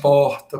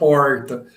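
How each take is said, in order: First: Belo Horizonte accent, R is not retroflex. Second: Caipira Uberaba accent, R is retroflex.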